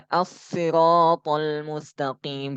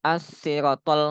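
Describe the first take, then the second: First: "as-siratal" with RA held long; slow recital, stretch the ra of "as-siratal"; ra dibaca panjang. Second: "as-siratal" with a short RA; ra dibaca pendek. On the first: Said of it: "Maka dibaca panjang". ("as-siratal" dengan ra panjang) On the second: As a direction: say "as-siratal" without stretching the ra. ("as-siratal" dengan ra pendek) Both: Shown as a demonstration.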